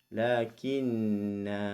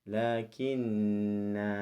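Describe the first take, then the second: Both takes have the same delivery.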